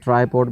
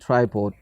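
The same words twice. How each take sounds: First: It is said with a South Asian accent. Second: It is said with a British accent. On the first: The speaker calls it wrong. "हमारे यहाँ होता है" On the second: The speaker calls it right. "But they people call it"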